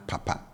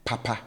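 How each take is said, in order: First: Papa with both syllables low. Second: Papa with both syllables high. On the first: Teacher contrasting low papa with high papa. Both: Shown as a demonstration. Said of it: "we have papa as against".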